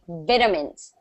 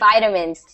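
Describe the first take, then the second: First: The word is said in a British way. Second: The word is said in an American way. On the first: "So in British English, you say it as it is written" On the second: "So in American, we say"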